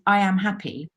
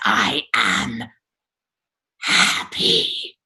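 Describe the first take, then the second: First: It sounds happy. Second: It sounds furious.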